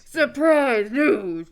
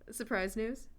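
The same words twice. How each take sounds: First: It is said in a put-on voice. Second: It is said in a normal voice.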